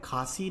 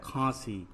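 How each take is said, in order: First: खांसी with a purely oral long aa, no nasal; खांसी said as "khaasi"; missing nasal. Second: खांसी with the long aa through the nose; खांसी said as "khaansi"; nasalized vowel. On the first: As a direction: drop the chandrabindu nasal from खांसी. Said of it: "नहीं होता है". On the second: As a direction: put the chandrabindu nasal into खांसी. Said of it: "क्या होता है". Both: Shown as a demonstration.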